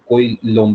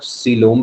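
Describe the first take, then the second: First: The first syllable sounds like 'koy'. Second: The first syllable sounds like 'see'. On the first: "कोई लोम भी बोल सकते हैं, दोनों तरीके से प्रोनाउंस करा जाता है" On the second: "इसे आप सीलोम भी बोल सकते हैं"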